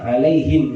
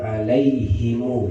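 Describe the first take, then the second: First: The final m is closed with no vowel. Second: The final m is followed by a long u.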